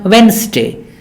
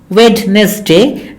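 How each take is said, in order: First: No D sound is heard in the middle. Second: A D sound is heard in the middle. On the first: The speaker calls it right. "The D is silent" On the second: The speaker calls it wrong. "not Wednesday"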